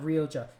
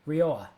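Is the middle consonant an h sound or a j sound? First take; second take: j sound; h sound. First: The middle consonant is an English j sound. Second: The middle consonant is a soft h sound. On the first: The speaker calls it wrong. "it's not Rioja" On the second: The speaker calls it right. "It's Rioa"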